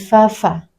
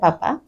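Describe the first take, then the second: First: The sound is made with teeth on lower lip. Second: The sound is made by closing both lips. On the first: The speaker calls it right. "tetapi fa-fa" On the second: The speaker calls it wrong. "bukan papa"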